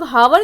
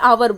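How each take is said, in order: First: The word starts with an audible h sound. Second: The word starts with a vowel, no h. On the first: The speaker calls it wrong. "हम लोग हावर नहीं बोलते हैं" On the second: The speaker calls it right. "बल्कि आवर बोलते हैं"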